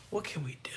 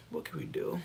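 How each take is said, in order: First: Said in the usual way. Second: Voiceless resigned whisper. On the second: Real, not acted. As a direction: breathe it out. Whispered repeat.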